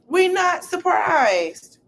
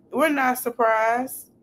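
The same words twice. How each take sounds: First: "We're not surprised" drawn out slow in a raised put-on voice; sarcastic drawn-out high "We're not surprised"; high, slow mock voice. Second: Said in the usual way. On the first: Shown as a demonstration.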